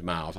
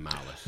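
First: Said in the usual way. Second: Miles said as "MY-lus", two syllables; Milas style. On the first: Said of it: "his real name's Miles". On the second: Shown as a demonstration. To his golf buddy, Miles said as "MY-lus". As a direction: stretch Miles into "My-lass", ending on -us. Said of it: "I call him Miles".

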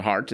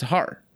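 First: Said in the usual way. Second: "har" for heart, no t at the end; dropped final T. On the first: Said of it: "it's not heart". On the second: Shown as a demonstration. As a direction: leave the t off, saying "har". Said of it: "the British do the same".

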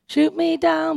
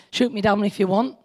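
First: "Shoot" pitched higher and punched; defiant repeat. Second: Said in the usual way. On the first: Real, not acted.

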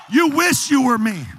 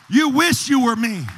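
First: Higher, shouted repeat; louder shouted rebuke. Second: Loud rebuke. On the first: Believer shouting the same line louder at the devil. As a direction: shout it the second time. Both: Acted. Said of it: "what you gotta do is just say".

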